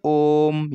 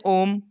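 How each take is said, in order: First: ओम with the ओ held three times long; prolonged Om. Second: Said in the usual way. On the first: Shown as a demonstration. Teacher demonstrating pluta: ओम with a long held ओ. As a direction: stretch the ओ of ओम slowly, chant-like. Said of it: "वो तीन गुने खिंचनी चाहिए". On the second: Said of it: "हम normal से बोल देते हैं".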